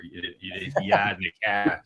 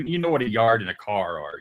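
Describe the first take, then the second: First: Boston accent, yard and car with no r, yahd and cah. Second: Said in the usual way. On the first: Shown as a demonstration. Host jokes about a Boston accent, mock Boston accent. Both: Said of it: "I get Boston".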